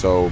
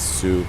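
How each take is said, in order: First: The word sounds like 'so'. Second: The word sounds like 'sue'. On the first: The French reading of the name. The speaker calls it wrong. "that is a French word that would be pronounced so" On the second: The local way of saying the name. The speaker calls it right. "but I guess it's Sue"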